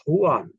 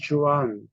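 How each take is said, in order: First: Juan said as wan, with no J sound; right Spanish way. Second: Juan said with an English J, like jew-an; wrong English reading. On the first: Teacher giving the correct Spanish way to say Juan. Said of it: "The right pronunciation is". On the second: Teacher showing the wrong English way to read Juan. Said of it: "That is not right". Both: Shown as a demonstration.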